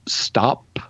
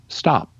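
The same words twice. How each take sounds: First: The final p is released with aspiration. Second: The final p is released without aspiration. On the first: "instead of saying" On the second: "you would just say stop"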